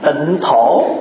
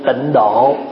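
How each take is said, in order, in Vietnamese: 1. Âm tiết thứ hai đọc là "tho". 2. Âm tiết thứ hai đọc là "do". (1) "Chữ thổ đàng hoàng mà" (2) "Vậy mà người Việt đọc là gì?"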